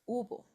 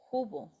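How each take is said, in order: First: The word begins directly with the vowel. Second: The word begins with an audible h sound. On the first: The speaker calls it right. "We don't pronounce the H" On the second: The speaker calls it wrong. "it's not hubo"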